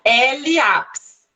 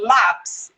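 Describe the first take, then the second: First: The letter name is said apart, then 'ápis'. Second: A plain L sound blends straight into 'ápis'. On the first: The speaker calls it wrong. "eu falo assim, ó, L ápis. Eu não faço isso" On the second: The speaker calls it right. "O som do L é L, lápis"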